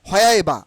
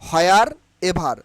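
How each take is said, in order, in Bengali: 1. r বাদ দেওয়া হয়েছে আর v নরম করে বলা হয়েছে। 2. r আর v দুটোই পুরোপুরি উচ্চারণ করা হয়েছে। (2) "নট হয়ার এভার"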